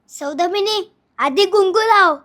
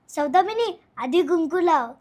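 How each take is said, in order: First: It is said in an angry tone. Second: It is said while laughing.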